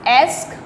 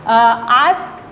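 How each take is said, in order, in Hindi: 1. स्वर एक सपाट फ्रंट 'ae' ध्वनि है। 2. स्वर एक लंबी खुली 'ah' ध्वनि है।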